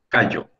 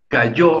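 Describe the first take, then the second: First: The stress is on the first syllable. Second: The stress is on the last syllable. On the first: It refers to a small island. "La sílaba tónica para este caso, para callo, es la primera" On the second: Someone fell down. "hay que pronunciar con énfasis la sílaba yo"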